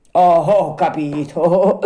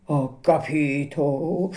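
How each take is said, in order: First: Laughing. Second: Slow, strained attempt at a laugh; forced laugh. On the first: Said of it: "disse allora ridendo". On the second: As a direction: force a nervous chuckle. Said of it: "sforzandosi di ridere". (risata forzata e nervosa) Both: A narrator's reading.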